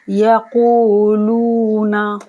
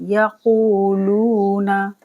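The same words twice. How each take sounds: First: यक़ूलूना chanted slowly and louder; slow chanted word; slow recitation. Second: यक़ूलूना with each वाव held two seconds; slow measured madd; two-count madd. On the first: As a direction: recite यक़ूलूना as flowing tilawat. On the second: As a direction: stretch both वाव in यक़ूलूना evenly. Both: Shown as a demonstration. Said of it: "दोनों को दो दो second के लिए खींचना है".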